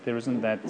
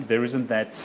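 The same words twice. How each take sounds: The two takes are said the same way.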